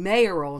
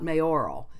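First: The stress falls on the first syllable. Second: The stress falls on the second syllable. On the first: This is the original, older pronunciation. "and mayoral" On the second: This is the more recent pronunciation. "not mayoral. That's more recent, the stress on the or part"

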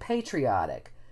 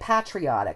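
First: The first vowel is a long vowel sound. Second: The first vowel is a short 'ah' sound. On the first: This is the American-style way of saying it. "now there's more of them are saying patriotic" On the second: This is the older British way of saying it. "they used to say patriotic, short, ah"

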